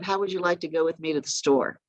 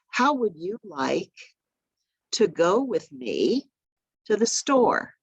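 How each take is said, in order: First: It is run together without any pauses. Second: It is broken into short chunks with pauses.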